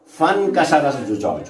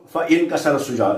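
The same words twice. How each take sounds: First: فانكسر glided straight from fa into nkasara, no hamza stop; linked hamza. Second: فإنكسر with a hard hamza stop on إ, wrongly cut off; wrong glottal stop. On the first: Teacher showing students the right way, hamza dropped. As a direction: run فانكسر together as one smooth word. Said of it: "بل نقول". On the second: Teacher showing students the wrong way, hard hamza. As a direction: say فإنكسر with a clear glottal catch before the i. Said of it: "لا نقول". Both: Shown as a demonstration.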